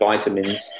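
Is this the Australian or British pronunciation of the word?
Australian. It is said with an Australian pronunciation. "instead of vitamins"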